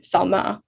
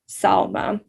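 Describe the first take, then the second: First: The stress is on the second syllable. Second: The stress is on the first syllable. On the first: The speaker calls it wrong. "rather than" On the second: The speaker calls it right. "the S A L part capitalized to indicate that that's where the emphasis lies"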